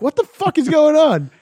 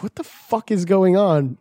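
First: Much higher, raised-voice demand; retold exasperated shout. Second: Slow, slightly high, puzzled question; retold bafflement. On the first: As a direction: yell it high in mock exasperation. Louder repeat in retold call. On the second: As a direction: draw it out in mild disbelief. First baffled reaction in retold call.

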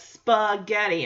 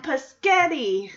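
First: "spaghetti" slowly, with a clear spa- at the start; "spaghetti" said carefully, first syllable set apart; corrective pronunciation. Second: "paschetti" with the first sounds swapped, drawn out; "paschetti", starting pas- instead of spa-, slowly; little kid's mispronunciation. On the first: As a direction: correct a child by sounding out "spaghetti". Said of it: "Joey wants to correct her". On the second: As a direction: say "paschetti" like a small child muddling spaghetti. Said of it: "No, Michelle, that's spaghetti". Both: Retold or imitated.

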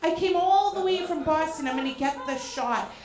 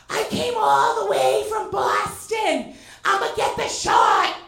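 First: Said in the usual way. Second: Loud, slow, higher declaration; loud bold declaration. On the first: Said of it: "but I". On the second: Retold or imitated. Fan yelling out truck window at [name], loud and slow. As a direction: announce it out the window like a paparazzo. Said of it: "I lean out and I go".

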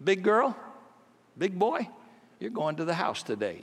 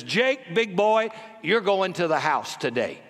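First: Tender invitation. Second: Coach hyping up. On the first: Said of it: "would walk around and say to people kind of metaphorically". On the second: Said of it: "points to Jake and says". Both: Retold or imitated.

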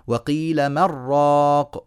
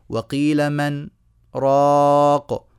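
First: Slow "من راق" fused into "مر راق"; unbroken, drawn-out "من راق" with doubled r; merged without sakt. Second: "راق" set apart from "من" and held long; sakt after مَن. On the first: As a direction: assimilate the n of "من" into a long rolled r of "راق". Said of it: "ما ينفعش نعمل كده". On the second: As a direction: clear "من", short pause, then long loud "راق". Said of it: "وإنما نقول إيه في رواية حفص". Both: Shown as a demonstration.

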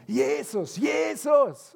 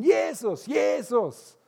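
First: High desperate shout of a blind beggar; calling out. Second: Even more desperate high shout; calling ever louder. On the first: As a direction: cry out to get Jesus' attention. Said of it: "fängt an zu rufen". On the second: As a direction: yell it louder over the crowd. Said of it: "Er wird immer lauter". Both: Retold or imitated.

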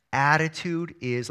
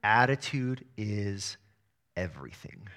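First: "Attitude is" said slowly, then left hanging for the crowd; call and response prompt. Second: "Attitude is" drawn out slowly, "everything" dropped low and soft; slow emphatic motto. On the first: Pastor getting the church to finish the motto, slow open prompt. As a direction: start the motto and stop for them to finish. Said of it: "let me hear you say it". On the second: Coach giving kids the team motto, slow and weighty. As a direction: lay the motto down slowly, letting "everything" sink. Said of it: "our team motto always is this". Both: Shown as a demonstration.

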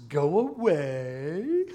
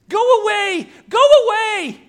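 First: Slow drawn-out mimicry, then a cackle; Gollum's mocking laugh. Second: Very high, loud creature shriek; desperate scream. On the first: Preacher as Gollum laughing at Smeagol's plea, mocking. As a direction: echo it mockingly, stretched and loud, then laugh. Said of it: "Gollum laughs". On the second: Acted. Preacher as Smeagol banishing Gollum, shrieking. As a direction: shriek to drive the other off.

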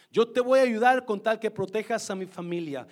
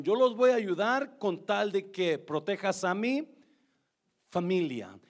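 First: Voy hit louder, falling at the end; stress on voy. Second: Said in the usual way. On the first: Shown as a demonstration. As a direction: lean hard on "voy" and let the line fall. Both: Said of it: "repeats Rahab's condition".

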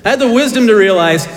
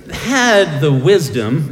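First: "I had the wisdom" punched higher, louder and faster; emphatic repeat. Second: Slow build-up. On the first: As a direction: hit "the wisdom" with mock pride. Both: Shown as a demonstration. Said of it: "it takes a lot of wisdom".

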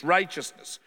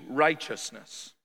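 First: Said in the usual way. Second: "Righteousness" drawn out slowly and weighty, falling at the end; "Righteousness" said slowly as the key answer, falling; slow emphasis. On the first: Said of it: "Doing right things". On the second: Shown as a demonstration. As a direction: lean into "Righteousness", stretching every syllable. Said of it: "what am I to pursue?".

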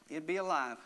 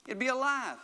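First: Said in the usual way. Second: Raised, higher-pitched preaching cry; emphatic exclamation. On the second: Real, not acted. Preacher driving the point home to the congregation, emphatic exclamation. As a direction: proclaim it high and emphatically.

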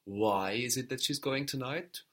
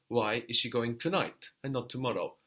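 First: "Why" leaned on, rising question at the end; stress on Why. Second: "tonight" punched against tomorrow, falling end; stress on tonight. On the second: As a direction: put the weight on "tonight". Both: Shown as a demonstration. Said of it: "what exactly are you asking".

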